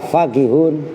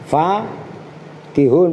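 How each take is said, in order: First: The first vowel is kept short. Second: The first vowel is held long.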